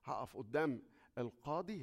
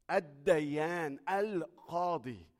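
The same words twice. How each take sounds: First: Said in the usual way. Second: الديان، القاضي said slow and loud, leaning hard on the ال; big stress on the definite article. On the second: Shown as a demonstration. Preacher stressing THE judge to the congregation, slow and loud. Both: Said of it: "ألف لام كبيرة قوي".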